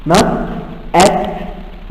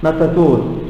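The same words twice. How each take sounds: First: Said in the usual way. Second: "not at all" run together, T starting next word; linked pronunciation. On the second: Shown as a demonstration. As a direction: link "not at all" as "no-ta-tall". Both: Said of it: "The T is moved to the second one".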